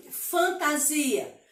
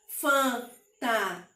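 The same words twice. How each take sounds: First: Said in the usual way. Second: "fantasia" slowly divided into four separate sounds; syllable by syllable. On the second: Shown as a demonstration. Teacher showing pupils how to separate syllables, "fantasia" said one syllable at a time. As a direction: break "fantasia" into spaced-out syllables. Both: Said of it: "se você falar a palavra".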